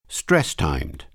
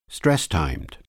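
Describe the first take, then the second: The two takes are said the same way.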